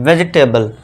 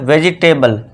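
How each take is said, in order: No difference in how they are said.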